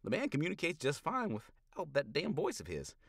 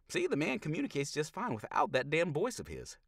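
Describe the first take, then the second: First: Higher, louder folksy needling. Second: Higher, louder folksy needling; teasing drawl. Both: Acted. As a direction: rib the doc with a grin. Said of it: "Critter says".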